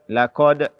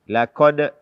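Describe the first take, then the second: Both takes have the same delivery.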